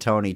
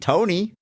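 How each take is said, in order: First: It is said as an emphatic exclamation. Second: It is said as a rising question.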